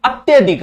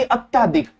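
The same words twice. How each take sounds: First: अत्यधिक with short vowel after tya; higher-pitched अत्यधिक, त्य kept short; correct pronunciation. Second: अत्याधिक with long aa after tya; wrong pronunciation. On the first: Teacher giving students the correct word, careful pronunciation. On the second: Teacher warning against the mistake, mispronounced demo. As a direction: say अत्याधिक, stretching त्या. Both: Shown as a demonstration. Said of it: "ना कि अत्याधिक".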